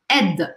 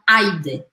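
First: The vowel is a single 'e' sound. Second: The vowel is split with an 'i' sound. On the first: The speaker calls it right. "o A e o I juntos viram E. E aí eu falo aide" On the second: The speaker calls it wrong. "não aide"

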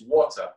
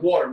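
First: The middle t sound is clearly pronounced. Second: The middle t sound is dropped. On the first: "You pronunciate every single letter" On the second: "we get rid of the T"

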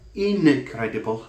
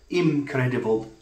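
First: The first syllable ends in an n sound. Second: The first syllable ends in an m sound. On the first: "not incredible, like inadequate" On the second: "It's not incredible, like impossible"

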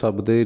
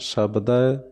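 First: The word ends in an e vowel. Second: The word ends in an ai vowel. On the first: The speaker calls it wrong. "ਸਬਦੇ ਨਹੀਂ ਕਹਿਣਾ" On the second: The speaker calls it right. "ਦੱਦੇ 'ਤੇ ਦੁਲਾਵਾਂ ਲੱਗੀਆਂ"

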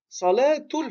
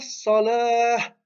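First: The word ends with a t sound and vowel. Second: The word ends on a vowel without t. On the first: The speech continues after the word. "on le prononce comme un T parce qu'on continue" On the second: The speaker stops on the word. "Il s'arrête sur le mot salah, donc il le prononce avec la soukoun"

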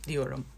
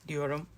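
Both takes have the same delivery.

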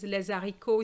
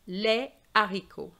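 First: A z sound links les to haricots. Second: No z sound links les to haricots. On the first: The speaker calls it wrong. "Children think that is les haricots, it's probably easier to say, but it's incorrect" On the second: The speaker calls it right. "You must say les haricots"

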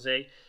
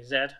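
First: The letter is said the American way, zee. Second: The letter is said the British way, zed.

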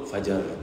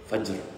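First: An a vowel separates the j and r. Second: The j and r come together without a vowel. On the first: "Akhirnya jadi disebut fajar" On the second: "macam orang sebut wal fajri, fajr"

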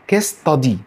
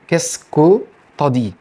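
First: The 'que' syllable is dropped and 'ta' is merged. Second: The 'tu as' is merged into a short 'ta'. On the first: "الكو اتحذفت اللي هي كيسكو" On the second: "تيو انت هتحولها الى طا"

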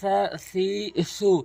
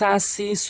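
First: The consonant is a th sound, tongue at teeth. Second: The consonant is a plain hissing s sound. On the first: The speaker calls it right. "জিব্বার আগা দাঁতের আগা" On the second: The speaker calls it wrong. "সা সি সু বলা যাবে না"

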